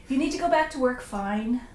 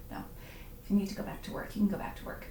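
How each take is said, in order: First: Mock huffy. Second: Soft reassurance. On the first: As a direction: pretend to be put out that they're leaving. Mock-offended at viewers leaving, then relents. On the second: Real, not acted. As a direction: drop the teasing and quietly let them off. Takes back the teasing, gives permission.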